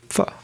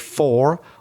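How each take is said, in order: First: The vowel in the word is reduced. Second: The vowel in the word is full. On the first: The speaker calls it right. "we tend to say" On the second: The speaker calls it wrong. "We don't tend to say"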